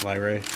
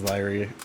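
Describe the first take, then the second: First: The word sounds like 'leery', two syllables. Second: The same.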